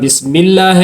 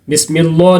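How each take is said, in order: First: The L sound is light and thin. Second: The L sound is heavy and full-mouthed. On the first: The speaker calls it right. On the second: The speaker calls it wrong.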